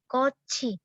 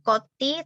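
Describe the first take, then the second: First: The consonant after ko is a ch. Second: The consonant after ko is a t. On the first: The speaker calls it right. "tapi koci" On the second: The speaker calls it wrong. "bukan koti"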